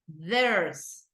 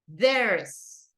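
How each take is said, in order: First: It is said as one contracted syllable. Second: The same.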